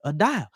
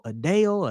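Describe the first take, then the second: First: DAO said as "dial" in a Southern drawl; Southern-accented dao. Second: "dao" said as one syllable rhyming with "how"; proper dao. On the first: Explaining a token model to viewers, "dial" in a Southern accent. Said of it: "My Southern accent won't allow me to pronounce it". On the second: Offering viewers the standard "dao" reading. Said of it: "however you wanna pronounce it". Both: Shown as a demonstration.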